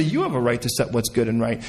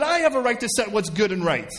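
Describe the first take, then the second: First: Lower, settled concession; deference. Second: High-pitched, insistent claim; self-assertion. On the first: Believer focused on the Lord hands over the right, deferential. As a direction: drop the pitch and yield on "You". God-focus set against self-focus. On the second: Believer focused on himself claims the right, self-assertive. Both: Acted.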